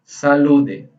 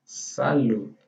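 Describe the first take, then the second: First: Salude with an added final e; wrong pronunciation. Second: Salud ending in a light dental d; soft final D. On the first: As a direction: say salude, adding an e after the d. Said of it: "Não é salude". (salude com e no final, pronúncia errada) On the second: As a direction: say salud, barely touching the d. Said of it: "Aquela pronúncia do D". (salud com o d leve, sem vogal) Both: Shown as a demonstration.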